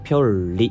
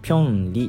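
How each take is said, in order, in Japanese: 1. Rの音の前にLの音が来る。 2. Rの音の前にNの音が来る。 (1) "ピョルリっていうことでR とかL の音に変わるんですよね" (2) "ただ単語のごとく読むとピョンリっていう風に言うんですが"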